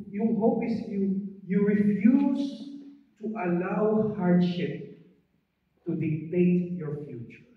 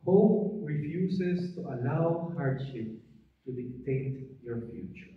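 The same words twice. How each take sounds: First: Slow, deliberate preaching; slow, weighty sermon line; preaching emphasis. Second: Slow, deliberate preaching restatement; slow, weighty sermon line. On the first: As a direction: spell out the lesson slowly. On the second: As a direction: repeat the lesson slowly. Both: Real, not acted.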